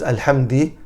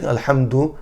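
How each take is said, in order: First: The word ends with an 'i' vowel. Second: The word ends with an 'u' vowel. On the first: The speaker calls it wrong. "he puts a kasra instead of a dhamma" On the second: The speaker calls it right. "instead of saying Alhamdu"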